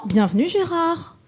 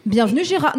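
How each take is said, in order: First: Gérard sung out much higher; redone welcome, name pitched up. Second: Said in the usual way. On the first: Shown as a demonstration. Host redoing the welcome for Gérard, name pitched up. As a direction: lift the name up high on the retake.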